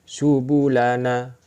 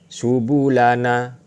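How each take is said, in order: The two takes are said the same way.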